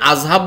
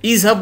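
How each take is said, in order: First: The word begins with an a vowel. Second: The word begins with an i vowel. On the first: The speaker calls it wrong. "আজহাব বলি না" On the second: The speaker calls it right. "ইজহাব বলি"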